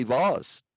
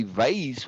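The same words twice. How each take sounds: First: "vase" said as vahz; vahz, open vowel; broad A vase. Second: "vase" said as vayz; vayz, drawn-out vowel; long A vase. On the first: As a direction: say vase with a long ah, rhyming with spas. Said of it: "I grew up to say vase". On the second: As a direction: say vase to rhyme with days. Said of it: "to say vase was pretentious". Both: Shown as a demonstration.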